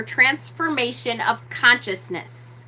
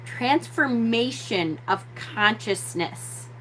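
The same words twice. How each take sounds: First: Said in the usual way. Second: Slow, softer "Transformation of consciousness"; emphatic repeat. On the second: Shown as a demonstration. Teacher repeats a key phrase to the audience, slowly and deliberately. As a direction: draw out "Transformation of consciousness" with weight. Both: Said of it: "Let me say that again".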